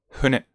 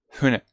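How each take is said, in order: First: The first sound is a soft, h-like breath. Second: The first sound is a soft, h-like breath.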